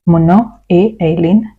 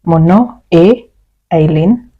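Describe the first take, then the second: First: Said in the usual way. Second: "Mon nom est" slowed, pause before "Eileen"; slow split model. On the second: Shown as a demonstration. Teacher to students, slow split demo. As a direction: spell it out slowly, then the name. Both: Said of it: "you can say".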